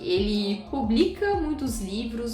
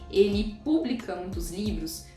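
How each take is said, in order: First: The first syllable of 'publica' is unstressed. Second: The first syllable of 'publica' is stressed. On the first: He puts books out. The speaker calls it right. "em vez de não acentuar publica" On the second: The word means public, which makes no sense here. The speaker calls it wrong. "você acentua o U"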